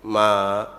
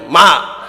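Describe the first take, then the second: First: It is said softly and gently. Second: It is said more loudly.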